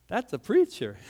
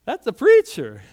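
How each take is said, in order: First: Said in the usual way. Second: Loud proclamation. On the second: Retold or imitated. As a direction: repeat it much louder, ringing out. Pastor recognizes a preacher.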